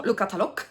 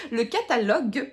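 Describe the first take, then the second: First: "catalogue" in a Tournai Picard accent, ending in a hard k, katalok. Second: Said in the usual way. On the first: Shown as a demonstration. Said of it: "mon accent, euh, tournésien ch'timi qui ressort". ("catalogue" avec l'accent tournésien ch'timi, finale en k)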